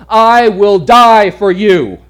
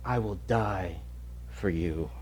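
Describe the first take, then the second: First: Loud, slow, higher proclamation; proclaimed loudly. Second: Soft, low whispered promise; whispering. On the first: Acted. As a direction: preach it out to the hall. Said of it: "sermon climax repeat". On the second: Retold or imitated. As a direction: breathe it to him. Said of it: "he whispers".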